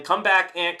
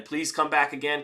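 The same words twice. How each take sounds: First: Calling out loud. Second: Said in the usual way. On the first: Real, not acted. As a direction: call out, louder and higher. Calling viewers to return.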